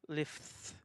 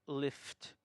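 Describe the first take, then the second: The two takes are said the same way.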